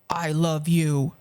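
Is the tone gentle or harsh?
harsh. It is said in a harsh, angry tone. The listener feels threatened and upset. "they kind of wince and start crying"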